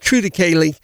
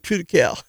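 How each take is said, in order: First: The word ends with a final 'lee' syllable. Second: The word ends on 'cal' with no extra syllable. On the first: This is the version used by people seen as educated. "I hear the smart guys say it's True to Cali" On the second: This is the version the speaker himself uses. "I hear the dumb guys like me say True to Cal"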